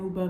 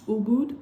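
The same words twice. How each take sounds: First: "Uba" without a final d; mispronounced Uba. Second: "Ubud" louder, with a rising end; emphasized Ubud. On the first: Solo traveler naming her trip town wrongly, mispronounced Uba. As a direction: say "Uba" lightly, dropping the last consonant. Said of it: "saying Uba the wrong way". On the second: Showing how others say the town name, emphasized Ubud. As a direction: lean on "Ubud", sounding the final d. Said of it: "an extra emphasis on it". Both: Shown as a demonstration.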